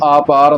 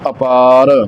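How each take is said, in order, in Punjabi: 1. ਪਹਿਲਾ ਸਵਰ ਲੰਮਾ ਹੈ। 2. ਪਹਿਲਾ ਸਵਰ ਛੋਟਾ ਹੈ। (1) "ਇਸ ਨੂੰ ਆਪਾਰ ਨਹੀਂ ਪੜ੍ਹ ਦੇਣਾ" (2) "ਕੰਨੇ ਤੋਂ ਰਹਿਤ ਹੀ ਇਹਦਾ ਉਚਾਰਨ ਕਰਨਾ ਹੈ"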